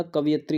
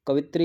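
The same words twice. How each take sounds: First: कवियत्री said as kaviyatri, ya sound in the middle; right form. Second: कवित्री said as kavitri, no ya sound; wrong spelling कवित्री said as kavitri; wrong form. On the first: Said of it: "कवियत्री होता". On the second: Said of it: "कवित्री नहीं होता". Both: Shown as a demonstration.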